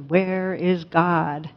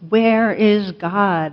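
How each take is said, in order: First: It is said more sternly and more forcefully. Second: It is said loudly with a raised voice.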